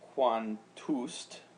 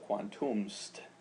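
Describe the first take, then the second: First: The um is dropped, giving quantust. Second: The um is kept, giving quantumst. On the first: The speaker calls it wrong. "So instead of quan, uh, quantust" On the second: The speaker calls it right. "the e is elided from the s, so quantumst"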